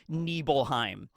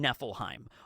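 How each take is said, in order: First: The middle consonant is a V-like sound. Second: The middle consonant is a plain F sound. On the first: The speaker calls it right. "the F is more of like a V or a B sound in English" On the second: The speaker calls it wrong. "rather than"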